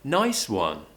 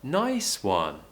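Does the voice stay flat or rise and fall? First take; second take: rise-fall; rise-fall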